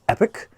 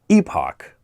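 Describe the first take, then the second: First: The word ends with a 'pick' sound. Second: The word ends with a 'pock' sound. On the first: Someone else claimed this is the correct pronunciation. "someone told me that it's pronounced epic" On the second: This is the speaker's usual pronunciation. "I always pronounce this epoch"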